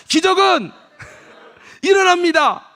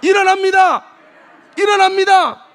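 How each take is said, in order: First: Chanted, slow, high, loud proclamation with a laugh; chanted, shout it with the congregation, laughing through; joyful loud chant. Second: Very loud, high repeated proclamation; full-volume call-and-response; shouted refrain. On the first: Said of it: "장로님도 시작". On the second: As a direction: drive the refrain home. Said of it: "다시 한번 크게 좀 해봐요". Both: Shown as a demonstration.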